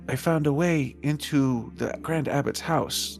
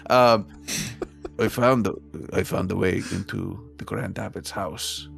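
First: It is said in a put-on squirrel voice. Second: It is said in a natural speaking voice. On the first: "I was trying to be a squirrel voice" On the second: "I can do my normal voice"

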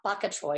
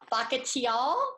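First: The word is said with two syllables, like bok choy. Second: The word is said with four syllables, ba-ku-chi-ol. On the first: The speaker calls it wrong. "because I say it that way" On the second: The speaker calls it right. "but it's bakuchiol"

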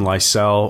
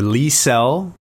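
First: The name is said the English way. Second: The name is said the Swedish way.

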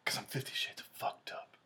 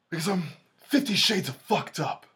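First: It drops to a near whisper, flat. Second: It is said loudly, with strong emotion.

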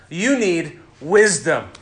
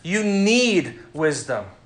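First: The stress falls on the word 'wisdom'. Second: The stress falls on the word 'need'. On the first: "I emphasized each different word there" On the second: "I emphasized each different word there"

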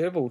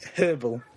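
First: It has a North American sound, h silent. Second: It has a British sound, h pronounced.

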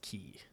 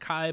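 First: The word rhymes with 'see', sounding like 'key'. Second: The word rhymes with 'eye', sounding like 'kai'. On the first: "but I think it is pronounced key" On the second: "It's like should be pronounced Kai"

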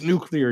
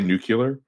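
First: The word is said as 'nuclear'. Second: The word is said as 'nucular'. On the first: The speaker calls it right. "it's nuclear" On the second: The speaker calls it wrong. "can't pronounce nuclear correctly and say nuclear"

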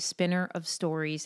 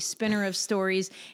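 First: It is read quietly with calmer energy. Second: It is read loudly with hyped-up energy. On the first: "I'll just read it softer now" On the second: "I won't go with the Rocky hype mantra here"

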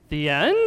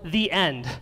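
First: The voice rises at the end. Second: The voice falls at the end. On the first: It is a question whether this is the end. "There's a question mark there. So it's more like" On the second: It is a statement that this is the end. "it is appropriate that our sermon today is titled The End"

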